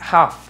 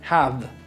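First: The final sound is a full, hard F. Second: The final sound falls between F and V. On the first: The speaker calls it wrong. "no es una completa F, no es have" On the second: The speaker calls it right. "es have ... entre F y V"

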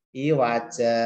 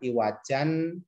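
First: The word ends with a long open vowel. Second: The word ends with a short vowel and n. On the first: The speaker calls it right. "tapi iwaja panjang" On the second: The speaker calls it wrong. "cara membacanya bukan iwajan"

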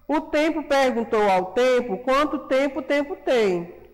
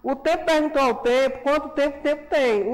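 First: It is read at a normal reading pace. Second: It is read very quickly, like a tongue twister. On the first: "Vamos fazer a leitura junto com a tia?" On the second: "bem rápido, vai, bem ligeiro"

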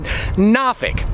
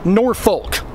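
First: The first syllable is nah, without an r. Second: It is said as spelled, ending in folk. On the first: Older locals say it this way. "Some of the old-timers even pronounce it Nafik. N-A-H-F-I-K" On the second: Hardly anyone local says it this way. "almost nobody around here says Norfolk"

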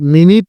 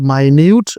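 First: It is said as 'MIN-it' with a short i. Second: It is said as 'my-NYOOT' with a long u. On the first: It means a unit of time. "এর উচ্চারণ আর মিনিট থাকে না" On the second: It means very tiny or detailed. "এর উচ্চারণ হয়ে যায় মাইনিউট বা মাইনুট"

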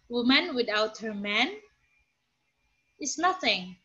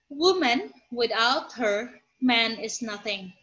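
First: It runs 'without her man' together without pausing. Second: It pauses after 'woman' and after 'her'.

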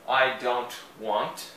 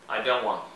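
First: Every sound is articulated carefully, including the T. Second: It is said quickly and the T is barely heard. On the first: "eu enunciei bastante as letras para vocês entenderem" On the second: "numa linguagem mais falada rapidamente ... Eles não enunciam tanto o T"

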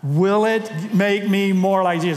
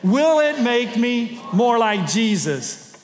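First: It is said with ordinary, modest energy. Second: It is said with more force and energy.

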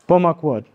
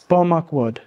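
First: The o vowels are reduced to schwa sounds. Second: The same.

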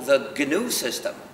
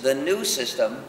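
First: The name is said with a hard g sound. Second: The name is said without a g sound. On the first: It names the system, not a new one. The speaker calls it right. "sigue siendo the GNU system" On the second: It sounds like the system is new. The speaker calls it wrong. "si dices the new system, ya te equivocas"

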